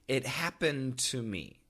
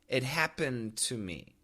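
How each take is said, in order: First: The D links into the following T. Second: The same.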